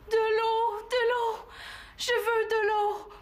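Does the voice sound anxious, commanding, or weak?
anxious. It sounds anxious and distressed.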